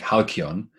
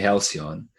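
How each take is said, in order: First: It is said with a Greek pronunciation. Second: It is said with an English pronunciation. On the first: "I pronounce it in the Greek like halcyon" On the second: "in English it would be halcyon"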